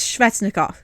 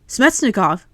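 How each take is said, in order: First: The name has a V sound after the S. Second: The name has an M sound after the S. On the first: The speaker calls it right. "it's Svechnikov. He's Russian. There is no M in Svechnikov" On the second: The speaker calls it wrong. "like with S M Smetsnikov on the E S P N broadcast"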